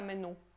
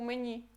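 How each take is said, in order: First: The final vowel is a plain u sound. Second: The final vowel sounds between i and u. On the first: The speaker calls it wrong. "A gente não fala menu" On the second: The speaker calls it right. "a gente fala menu"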